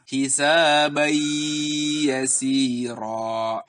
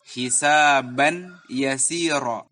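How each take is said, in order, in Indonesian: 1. Bunyi n menyatu dengan y dengan dengung yang ditahan. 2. Bunyi n diucapkan jelas sebelum y. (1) "dimasukkan dengan sedikit gunnah, sedikit ditahan" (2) "tidak boleh dibaca jelas ... Itu keliru"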